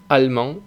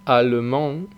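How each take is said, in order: First: "allemand" as "al-mand", no middle E; dropped E. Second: "allemand" with the middle E said, a-le-mand; full French allemand. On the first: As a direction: swallow the E in "allemand". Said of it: "tiende a no pronunciarse". ("allemand" sin E, "almand") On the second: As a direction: say all three syllables of "allemand". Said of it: "Algunos ejemplos". ("allemand" con la E intermedia) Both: Shown as a demonstration.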